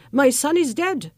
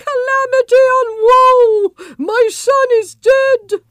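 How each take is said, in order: First: Said in the usual way. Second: Much higher, loud anguished wailing; shrill wail of pain. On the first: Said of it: "weep and cry. My son is dead". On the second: Acted. Queen lamenting to the palace, shrill and loud. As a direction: wail it out as if grieving. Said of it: "cried in a voice shrill with pain".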